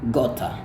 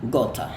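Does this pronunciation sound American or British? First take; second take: British; British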